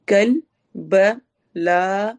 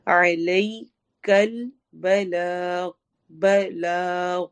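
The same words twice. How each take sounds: First: بلاغ drawn out very slowly with a stop on the ghain; slow chanted recitation. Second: علیک البلاغ drawn out very slowly, stopping on the ghain; slow Quranic recitation. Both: Shown as a demonstration. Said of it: "غائن پہ ہم نے stop کرنا ہے".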